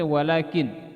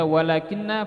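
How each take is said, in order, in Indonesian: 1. Bunyi n dibaca tunggal dan berada di akhir kata. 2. Bunyi n dibaca ganda dan diikuti vokal.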